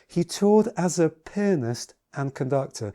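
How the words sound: The word pianist is strongly emphasized.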